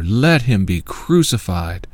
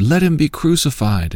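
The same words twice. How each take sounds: First: Slow, drawn-out narrated shout; insistent crowd shout. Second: Higher-pitched crowd demand, read aloud; crowd's demand. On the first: Crowd insisting to Pilate all the more, slow narrated shout. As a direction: stretch the crowd's cry out with punched peaks. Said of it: "But they shouted all the more". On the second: Crowd answering Pilate about Jesus, raised-pitch demand. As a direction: narrator lifting the pitch for the crowd's reply. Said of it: "They all said". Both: A narrator's reading.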